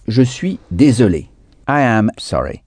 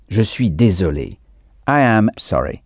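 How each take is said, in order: Both takes have the same delivery.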